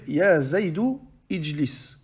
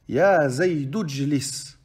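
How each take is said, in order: First: The initial vowel of ijlis is pronounced separately. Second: The initial vowel is dropped, linking straight into jlis. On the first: The speaker calls it wrong. "il n'est pas correct de dire" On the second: The speaker calls it right. "il faut faire la liaison et pas prononcer le elif"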